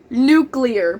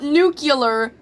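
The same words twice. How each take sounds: First: It is said as two parts, nu-clear. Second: It is said with an extra syllable, nu-cu-lar. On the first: The speaker calls it right. "it's N U clear" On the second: The speaker calls it wrong. "not nuclear ... and not N U C U L A R"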